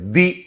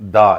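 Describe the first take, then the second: First: The vowel is a long 'ee' sound. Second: The vowel is a short 'uh' sound. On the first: It comes before a word starting with a vowel sound. "ది అని పలకాలి" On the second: It comes before a word starting with a consonant sound. "ఇలాంటి వాటి ముందు దా అని పలకాలి"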